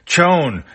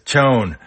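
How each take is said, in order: First: Higher, louder second call of the name; second call of Chone pitched up high. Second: Loud first call of the name; first urgent call of Chone. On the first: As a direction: call again, more insistent. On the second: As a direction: call him over, firmly. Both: Acted. Bicky calls Chone urgently.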